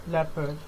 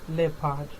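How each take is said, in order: Both takes have the same delivery.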